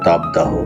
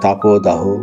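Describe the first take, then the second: First: No o vowel is heard after tap. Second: An o vowel is heard after tap. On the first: The speaker calls it wrong. "ঠিক আমি একটি শব্দ ভুল উচ্চারণ করেছিলাম, তাপদাহ" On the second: The speaker calls it right. "অ এর উচ্চারণ ও এর মতো হবে"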